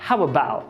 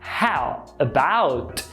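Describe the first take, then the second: First: The T at the end is dropped. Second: The T at the end is clearly pronounced. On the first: "apagando esse T" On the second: "Quase ninguém fala assim"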